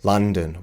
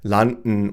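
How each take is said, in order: First: It is said with native English pronunciation. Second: It is said with German pronunciation. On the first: The speaker calls it right. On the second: The speaker calls it wrong.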